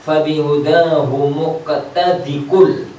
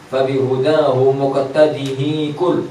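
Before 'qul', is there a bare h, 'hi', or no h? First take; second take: no h; hi. First: No h sound comes before qul. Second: The h carries an i vowel before qul. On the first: "hak saktahnya dibuang kalau wasal" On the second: "jangan di kasroh ya"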